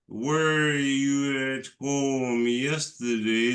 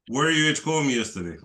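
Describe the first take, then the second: First: The question is spoken slowly and deliberately. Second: The question is spoken quickly and smoothly. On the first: The speaker calls it wrong. "It sounds unnatural for us" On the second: The speaker calls it right. "You speak so fast"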